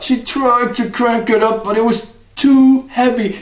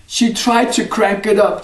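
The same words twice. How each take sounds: First: Higher, strained effort voice; straining. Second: Said in the usual way. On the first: Acted. Wife struggling with the heavy bucket, straining. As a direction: push the words out as if hauling.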